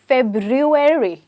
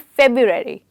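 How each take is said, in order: First: Both r sounds are clearly pronounced. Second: Only one r sound is pronounced. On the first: The speaker calls it right. "बोलने में हम सिर्फ एक आर बोलते हैं, जबकि हमें दो आर बोलने होते हैं" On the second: The speaker calls it wrong. "ना कि फेब्रुअरी"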